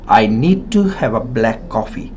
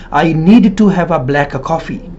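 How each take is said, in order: First: "need to" merged into one t; assimilated sounds. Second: "need to" with both d and t sounded; unassimilated, word by word. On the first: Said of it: "words will assimilate and delete". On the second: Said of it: "we don't say". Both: Shown as a demonstration.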